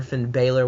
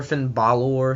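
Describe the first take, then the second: First: Finn Balor with the first vowel as in "bay", ending "ler"; Southern-style Finn Balor, BAY-ler; name said Bay-lor. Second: Finn Balor with the first vowel as in "father", ending "lore"; name said Bah-lor. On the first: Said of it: "I'm gonna call him Finn Balor 'cause it's easy for me to say". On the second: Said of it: "southern accent saying Finn Balor". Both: Shown as a demonstration.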